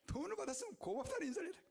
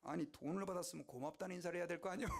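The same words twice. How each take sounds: First: Restated higher and faster with a rise; 고맙다는 lifted high and rising at the end; higher repeat. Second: Amused. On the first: Shown as a demonstration. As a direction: hit 고맙다는 high, quicker. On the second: Retold or imitated. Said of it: "방정환 선생님이 이러는 거예요".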